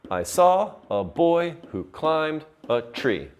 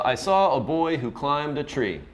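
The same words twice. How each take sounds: First: Put-on "saw", "boy", "climbed", "tree" each hit as separate beats; measured da-DUM beat on "saw", "boy", "climbed", "tree"; iambic stress. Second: Said in the usual way. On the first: Shown as a demonstration. Teacher scans four iambs for class, stressing every second word. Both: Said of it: "That's I am four times".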